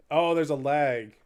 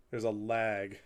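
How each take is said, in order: First: Louder slow "Oh, there's a lag" as it dawns; sudden realization. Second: Said in the usual way. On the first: Real, not acted. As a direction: react as you suddenly notice the lag.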